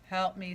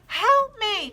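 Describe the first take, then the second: First: It is read flatly, without expression. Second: It is read with lively expression.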